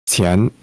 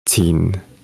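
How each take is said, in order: First: The surname is pronounced the Mandarin way. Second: The surname is pronounced the Cantonese way. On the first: "in Mandarin, you might have this pronounced as qian" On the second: "in Cantonese, you would have it pronounced as qin"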